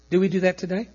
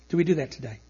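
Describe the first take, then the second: First: "Do we do that today?" with a rising questioning tune on today. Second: "Do we do that today?" again, softer with DO stressed and a falling end; softer falling repeat. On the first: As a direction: ask it with the voice lifting at the end. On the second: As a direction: repeat it quieter and falling, as if to yourself. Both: Real, not acted.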